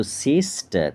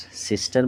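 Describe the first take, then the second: First: সিস্টার parted as সিস, টার; split in two syllables. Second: Said in the usual way. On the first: Shown as a demonstration. Teacher showing syllables to pupils, সিস্টার as সিস-টার. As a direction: break সিস্টার into two long beats. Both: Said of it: "দুবার ভাঙা হচ্ছে".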